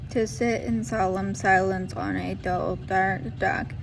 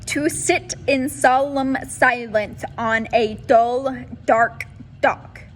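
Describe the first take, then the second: First: The final consonants are slurred and barely articulated. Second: The final consonants are crisp and strongly articulated. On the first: The speaker calls it wrong. "this is what not to do" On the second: The speaker calls it right. "this is the best way to do your vocal warm-ups"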